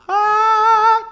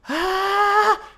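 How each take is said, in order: First: The voice is clear and bright. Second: The voice is weak and airy. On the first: "It's like clear and bright" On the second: "it's really weak and airy"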